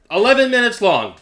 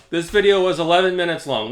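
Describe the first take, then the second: First: Eleven punched higher and louder; stress on eleven. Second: Said in the usual way. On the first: Shown as a demonstration. Vlogger taunts the rival about video length, punching Eleven. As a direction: hit Eleven hard, proving the point.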